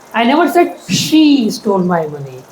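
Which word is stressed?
she. The word she carries the main stress. A different person stole it. "I said he stole my money, not she"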